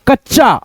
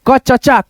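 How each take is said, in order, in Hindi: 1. च की ध्वनियाँ बिना किसी स्वर के जुड़ जाती हैं। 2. एक अतिरिक्त स्वर च की ध्वनियों को तोड़ देता है। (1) "तो आपको कैसे पढ़ना है" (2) "ऐसे पढ़ोगे तो आपका पढ़ने का तरीका बिल्कुल गलत होगा"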